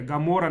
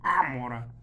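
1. Название начинается со звука g. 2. Название начинается с гортанного айн. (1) "Вообще буквы Айн обычно переводят как Г" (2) "а не Амора"

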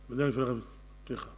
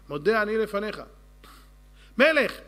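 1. המילה האחרונה נבלעת לצליל לא ברור. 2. כל המילים, כולל האחרונה, נאמרות בבירור. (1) "תכה. מה? תכה. מי זה תכה?" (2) "תגיד את זה כמו בן אדם"

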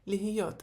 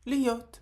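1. Середній звук h чітко вимовляється. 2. Середній звук h повністю випадає. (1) "оскільки є літера гей, то ми її промовляємо" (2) "в розмовній мові дуже часто можна почути льот... Просто з'їдається цей звук"

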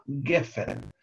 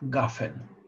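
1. Первый гласный звучит как 'e'. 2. Первый гласный звучит как 'a'. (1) "гефен пишется, это согласное слово, пишется оно с двумя гласовками сегол" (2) "в конце фразы ударный сегол меняется на камац. Поэтому некоторые произносят"

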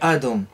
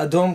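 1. המבטא נופל על ההברה הראשונה. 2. המבטא נופל על ההברה האחרונה. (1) "ולא יהיה" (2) "כדי שיהיה מלרע"

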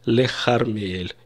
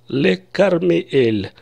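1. Название города начинается с хриплого звука kh. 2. Название города начинается с твёрдого звука k. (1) "по нормам нужно сказать" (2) "все скажут"

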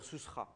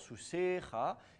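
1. La voyelle du milieu tombe complètement. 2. Une voyelle du mot est tenue plus longtemps. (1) "le E va tomber, on va dire Sousra" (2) "peut-être une voyelle plus longue... on va rester plus longtemps"

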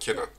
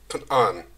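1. Kelime kısa bir ünlüyle, düz söyleniyor. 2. Kelime uzatılarak, boğazdan çıkarılarak söyleniyor. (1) "bizim bildiğimiz ya Kenan" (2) "biraz uzatıyorlar... Böyle gırtlaktan bayağı"

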